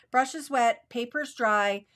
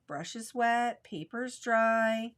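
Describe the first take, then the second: First: Crisp teacher's rule, "Brush is wet, paper's dry" hit loud; stressed mantra. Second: Drawn-out "brush is wet, paper's dry", with "dry" stretched slow; teacher slowing right down to repeat the rule; slow mantra. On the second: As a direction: spell the rule out slowly, word by word. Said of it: "wet into dry". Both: Shown as a demonstration.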